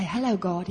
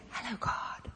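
First: Said in the usual way. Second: Barely voiced, shy little greeting; timid whisper. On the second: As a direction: whisper it as if you dare not speak to God. Too timid to greet God.

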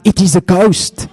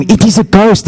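First: High mock cry of panic; a half-hearted retold scream. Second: Hammed-up ghost alarm; mock scream. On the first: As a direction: squeal it like frightened fishermen. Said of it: "They scream out". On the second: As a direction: cry it out like a terrified sailor. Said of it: "They scream".

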